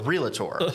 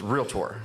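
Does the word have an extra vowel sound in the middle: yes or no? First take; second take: yes; no. First: An extra vowel sound is inserted mid-word. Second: No extra vowel sound is inserted mid-word. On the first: The speaker calls it wrong. "we don't go to the docator, and we don't ever sign up a realtor" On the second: The speaker calls it right. "It's realtor"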